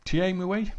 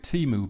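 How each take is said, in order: First: "Thiemoué" said as tee-ay-moo-ay, rising and unsure; trying the French name. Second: "Timu" said short, tee-moo; common pronunciation. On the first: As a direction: sound out "Thiemoué" in every syllable, questioning. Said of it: "the accents above the E's". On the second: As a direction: say "Timu" as two quick syllables. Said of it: "everyone pronounces it Timu". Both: Shown as a demonstration.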